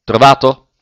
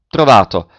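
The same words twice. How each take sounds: First: Trovato? louder, rising sharply at the end; asking question. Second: Trovato with a firm falling close; flat answer. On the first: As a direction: throw Trovato? up as an eager question. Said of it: "domandò a bassa voce". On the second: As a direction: settle Trovato down as a confirmation. Partner answers the question. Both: A narrator's reading.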